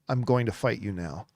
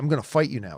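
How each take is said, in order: First: It is said in a hurt tone. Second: It is said in an angry tone.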